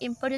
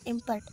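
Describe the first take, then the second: First: The stress is on the second syllable. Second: The stress is on the first syllable. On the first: It is used as a verb. "ଯଦି ଆମର verb ହେଇଯିବ" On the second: It is used as a noun. "im im im ପରେ ଦିଆ ହେଲା"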